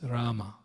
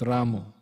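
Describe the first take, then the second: First: The word ends with an a vowel. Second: The word ends with an o vowel. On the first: The speaker calls it right. "It's Rama" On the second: The speaker calls it wrong. "not Ramo"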